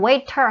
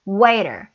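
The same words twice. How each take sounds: First: The middle T is a clear T sound. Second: The middle T is a soft D-like flap. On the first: "물론 waiter 하셔도 돼요" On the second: "모음과 모음 사이에 있을 때 역시 D 리을 소리 나옵니다"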